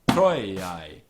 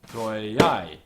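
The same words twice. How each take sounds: First: The stress is on the first syllable. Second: The stress is on the second syllable. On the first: It follows the word's own accent. "the natural word accent is troiai" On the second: It follows the verse beat. "ictus is troiai"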